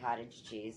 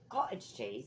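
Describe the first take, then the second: First: It is said in the speaker's ordinary American accent. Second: It is said in a put-on British accent.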